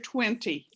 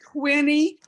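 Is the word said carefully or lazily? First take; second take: carefully; lazily. First: It is said carefully and in full. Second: It is said in a lazy, reduced way. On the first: This is the form heard less often. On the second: This is the form heard more often.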